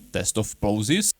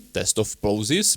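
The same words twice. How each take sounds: First: The voice has boosted bass. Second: The voice has less bass. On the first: "I increased a bit the bass" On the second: "to this very close distance"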